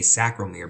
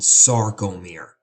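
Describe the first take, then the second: First: The R sound comes after the C sound. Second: The R sound comes before the C sound. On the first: The speaker calls it wrong. "mispronounce that and say sacromere because you want to flip the C and the R" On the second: The speaker calls it right. "It's called sarcomere"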